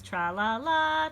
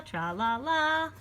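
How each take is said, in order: First: Said in the usual way. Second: Slow little sung tra-la-la. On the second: Shown as a demonstration. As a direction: sing it like a happy beast. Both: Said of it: "this time it says tra-la-la".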